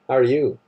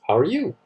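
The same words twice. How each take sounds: First: It sounds hostile and contemptuous. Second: It sounds like a plain friendly greeting.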